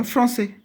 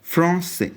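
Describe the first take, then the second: First: फ्रांसे in French with a falling end; French word demo. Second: फ्रांसे said a bit higher, falling to close; फ्रांसे said in French, calm falling tune; French word demo. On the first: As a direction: pitch फ्रांसे up with a falling tune. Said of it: "French के लिए क्या आएगा". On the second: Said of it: "ख़त्म". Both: Shown as a demonstration.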